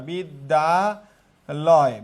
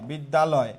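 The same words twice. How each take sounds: First: বিদ্যালয় extremely slow, each syllable held apart. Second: Said in the usual way. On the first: Shown as a demonstration. Teacher showing three syllables, বিদ্যালয় very slowly broken up. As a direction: draw out বিদ্যালয় piece by piece. Teacher splits word again.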